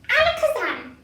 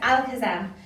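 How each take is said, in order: First: It is said in a put-on character voice. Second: It is said in a normal voice.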